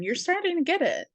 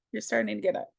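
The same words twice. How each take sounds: First: Much higher and faster, pushed up; a quick high-pitched encouraging line; high fast take. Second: Said in the usual way. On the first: Shown as a demonstration.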